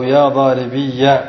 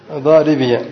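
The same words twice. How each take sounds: First: Slow "ضاربي", ending leaned on as -iyya; doubled final ya. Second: "ضاربي" with a light -iya ending; single light ya in "ضاربي", then short a; ya without doubling. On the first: Teacher testing students, "ضاربي" slowly drawn to daaribiyya. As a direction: lean on the ya of "ضاربي" before a final a. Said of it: "بتشديد ماذا؟". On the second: Teacher correcting the doubling, "ضاربي" said lightly as daaribiya. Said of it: "بدون تشديد". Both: Shown as a demonstration.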